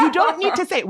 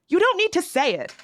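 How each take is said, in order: First: High, louder, laughing through it; laughing repeat. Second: High, pointed you don't need to say it; exasperated. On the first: Host repeats her scolding, laughing it out. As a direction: crack up while scolding. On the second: Host to Midwest transplants, higher, fed up. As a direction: stop them mid-boast, fed up. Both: Acted.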